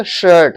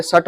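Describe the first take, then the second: First: शर्ट with a clear SH; correct SH sound. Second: शर्ट with a plain S, as "sart"; wrong S sound. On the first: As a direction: start शर्ट on a hushing SH. (शर्ट को साफ़ 'श' से बोलें) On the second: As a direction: start शर्ट on S instead of SH. (शर्ट को गलत 'स' से, "सर्ट" बोलें) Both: Shown as a demonstration. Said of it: "अरे शर्ट मत".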